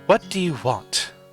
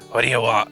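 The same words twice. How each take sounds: First: It is spoken in the angry old woman's voice. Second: It is spoken in another character's voice.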